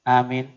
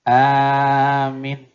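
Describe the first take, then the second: First: Both vowels are said short. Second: The first vowel is long, the second short. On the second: "dipanjang, pendek di belakang"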